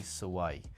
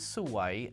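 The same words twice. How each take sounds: First: The word has a flatter, level tone. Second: The word has a less flat, moving tone. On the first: It means unlucky. "with a kind of a flatter tone" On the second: It means beautiful. "the word for beautiful in Thai is suwai"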